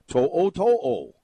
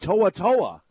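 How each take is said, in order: First: Each part of the name ends with an 'o' vowel. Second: Each part of the name ends with an 'a' vowel. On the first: The speaker calls it right. "you would say To'o-To'o" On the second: The speaker calls it wrong. "the announcers, time after time, are saying To'a-To'a. I don't see any A in his name"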